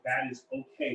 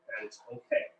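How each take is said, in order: First: Said in the usual way. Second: Softly whispered reassurance; whispering. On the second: Shown as a demonstration. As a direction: whisper it gently to the viewers. Repeats reassurance more softly.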